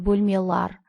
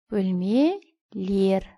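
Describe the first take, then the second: First: The suffix is said with the vowel a. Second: The suffix is said with the vowel e. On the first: The speaker calls it wrong. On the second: The speaker calls it right.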